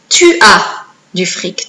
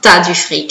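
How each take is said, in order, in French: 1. 'Tu as' se dit en entier, en deux syllabes. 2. 'Tu as' se réduit à une syllabe, 't'as'. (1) "On ne l'écrit pas comme ça normalement" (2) "là encore c'est une contraction"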